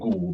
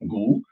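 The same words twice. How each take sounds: First: The word has a low flat tone. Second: The word has a rising tone. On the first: The word is part of a phrase meaning beef. "the rising tone becomes a flat low tone" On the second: The word stands alone and means cow. "with the rising gu"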